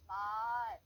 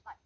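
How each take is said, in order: First: 말 held long and much louder; drawn-out, booming 말; long vowel. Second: Said in the usual way. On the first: Shown as a demonstration. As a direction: stretch the vowel of 말 out, loud and steady. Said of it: "이렇게 나가는 거는 길게 발음한다".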